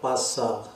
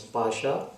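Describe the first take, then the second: First: The middle consonant is a plain s sound. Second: The middle consonant is an sh sound. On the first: It means near. The speaker calls it wrong. "not passa" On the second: It means dice. The speaker calls it right. "Here the word is pasha"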